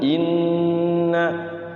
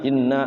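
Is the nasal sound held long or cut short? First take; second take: long; short. First: The nasal sound is held for a while. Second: The nasal sound is cut short, rushed. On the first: The speaker calls it right. "Jadi tahan dulu inna" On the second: The speaker calls it wrong. "Jangan sampai langsung inna"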